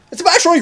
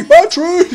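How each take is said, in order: First: High excited cry of discovery. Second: Squealed even louder and higher; excited. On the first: Gamer spotting a battery, excited high cry. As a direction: blurt out the find, thrilled. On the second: Gamer echoing the find to viewers, squealing. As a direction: repeat it, squealing with glee. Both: Real, not acted.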